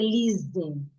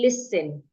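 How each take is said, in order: First: The middle consonant is a buzzing z sound. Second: The middle consonant is a hissing s sound. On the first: The speaker calls it wrong. "some people change the S here to a Z. You hear them say listen. That is wrong" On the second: The speaker calls it right. "Simply say listen"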